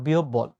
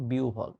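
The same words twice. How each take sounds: First: "বিহবল" as bi-ob-bol, doubled b; wrong pronunciation. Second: "বিউভল" low and soft, bi-u-bhol; correct pronunciation. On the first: Teacher ruling out the error, "বিহবল" said with a doubled b. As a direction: give "বিহবল" its mistaken hard b-b. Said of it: "not বিহবল". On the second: Teacher settling on the right form, soft low "বিউভল" as bi-u-bhol. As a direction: say "বিউভল" with u and aspirated bh. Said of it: "এটা হচ্ছে বিউভল". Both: Shown as a demonstration.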